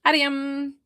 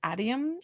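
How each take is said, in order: First: Adium said firmly as AH-dee-um; settling the name. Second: Adium, asked with a rising AH-dee-um; checking the name. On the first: Settling on the name Adium, AH-dee-um, firmly. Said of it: "Or do I say it like Adam?". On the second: Checking the sitter's name Adium, rising AH-dee-um. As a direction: try Adium as AH-dee-um, questioning. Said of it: "Am I saying that right?". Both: Shown as a demonstration.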